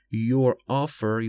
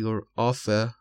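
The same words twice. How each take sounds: First: Slow 'your offer' with the final r sounded; final r pronounced. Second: 'your offer' ending in an open vowel, no r; final r dropped. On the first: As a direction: finish offer on a clear r. (تلفظ offer با «ر» آخر) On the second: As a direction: leave the r off the end of offer. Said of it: "یا تلفظ نشه". (تلفظ offer بدون «ر» آخر) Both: Shown as a demonstration.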